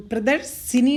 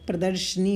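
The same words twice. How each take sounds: First: प्रदर्शिनी with an extra i, 'pra-dar-si-ni'; wrong pronunciation. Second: प्रदर्शनी ending in 'sh-ni', no i between; correct pronunciation. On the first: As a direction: stretch प्रदर्शिनी into four beats ending 'si-ni'. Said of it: "प्रदर्शिनी नहीं होता है". (प्रदर्शिनी का गलत उच्चारण, 'सिनी' के साथ) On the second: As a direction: say प्रदर्शनी as 'pra-darsh-ni'. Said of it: "प्रदर्शनी होता है". (प्रदर्शनी का शुद्ध उच्चारण, 'शनी' के साथ) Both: Shown as a demonstration.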